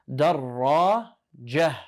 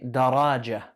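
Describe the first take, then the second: First: Darrajah drawn out slowly, rr held; doubled ra, slowly. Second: Daraja said with a single short r; wrong single ra. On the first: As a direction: stretch Darrajah to show the doubled r. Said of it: "has the shadda on it". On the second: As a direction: show the wrong daraja, no doubling. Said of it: "Don't say daraja". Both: Shown as a demonstration.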